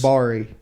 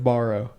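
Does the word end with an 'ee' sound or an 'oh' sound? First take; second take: ee; oh. First: The word ends with an 'ee' sound. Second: The word ends with an 'oh' sound. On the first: This is how a relative says it. The speaker calls it wrong. "And bari" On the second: This is the usual way to say it. The speaker calls it right. "instead of borrow"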